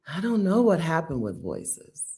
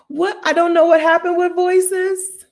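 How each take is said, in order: First: Said in the usual way. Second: High, loud, incredulous outburst; loud bafflement. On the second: Real, not acted. Speaker baffled by changed voices, high loud incredulous outburst. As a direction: shoot way up in pitch, bewildered. Exclaims in bafflement, then repeats plainly.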